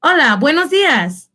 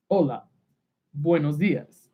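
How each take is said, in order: First: High, lilting Spanish hello; lifted sing-out morning greeting; role-play greeting. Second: Low, soft mock-male greeting; deep-pitched, subdued put-on voice; masculine voice. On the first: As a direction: greet the other person, pitched up. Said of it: "You can greet each other different ways". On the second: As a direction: greet quietly as the man in the role-play. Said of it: "a masculine sounding voice". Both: Shown as a demonstration.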